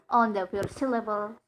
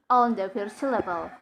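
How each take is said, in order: The two takes are said the same way.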